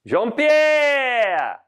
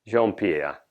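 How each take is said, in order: First: High, long-held yell that falls away; calling out. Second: Said in the usual way. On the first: Acted. Chef summoning his absent sous chef, high drawn-out call. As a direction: holler for someone in another room.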